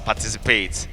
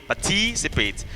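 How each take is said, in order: First: The main stress is not on the second syllable. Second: The main stress is on the second syllable. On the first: The speaker calls it wrong. "not uh" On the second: The speaker calls it right. "the primary stress is on the T"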